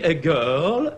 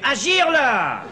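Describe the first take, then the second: First: It is said with a plain English accent. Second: It is said with a southern French accent.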